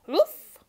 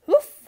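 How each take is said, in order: First: High, loud questioning woof; a dog asking hopefully for a trim; hopeful bark. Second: Very high, very loud sharp woof; firm bark. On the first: Brute the dog begs the salon, hopeful rising woof. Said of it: "asked Brute hopefully". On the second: Brute the dog refuses his owner, a firm loud bark. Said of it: "barked Brute firmly". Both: A narrator's reading.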